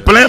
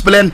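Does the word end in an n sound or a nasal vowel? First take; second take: nasal vowel; n sound. First: The word ends in a nasal vowel. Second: The word ends in a clear n sound. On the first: "c'est plein" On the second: "mais on prononce plein"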